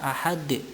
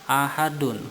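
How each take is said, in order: First: The word stops on a strongly bounced final consonant. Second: The word ends with a full '-un' syllable. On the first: The reader pauses at the end of the verse. "dibaca ahad, qalqalah kubro" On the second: The word is read in full without stopping. "Kalimatnya ditulis dengan lengkap ahadun"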